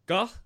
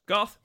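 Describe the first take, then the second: First: Muffled by cloth over the mouth; pants on mouth. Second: Said in the usual way. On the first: Real, not acted. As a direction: call out through fabric covering lips. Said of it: "got pants on my mouth". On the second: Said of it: "Sorry, got pants on my mouth".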